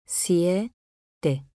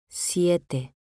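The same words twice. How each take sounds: First: "Siete" split as Sie, te, pause between; syllable by syllable. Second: Said in the usual way. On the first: Shown as a demonstration. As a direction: say "Siete" in two separate pieces, Sie... te. ("Siete" separado en sílabas: sie, te) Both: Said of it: "Separación de sílabas".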